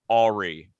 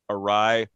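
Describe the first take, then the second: First: It sounds like the name Ari. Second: It ends with a long rye sound. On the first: The speaker calls it wrong. "Ari for like like fucking hack the planet's name" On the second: The speaker calls it right. "I pronounce the word awry"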